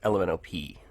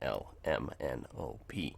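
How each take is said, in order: First: The letters run together like one word. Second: Each letter is separated by a short pause. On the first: The speaker calls it wrong. "bunch them together like one sound, like kids do" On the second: The speaker calls it right. "rather than"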